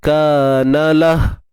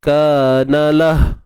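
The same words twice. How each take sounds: Both takes have the same delivery.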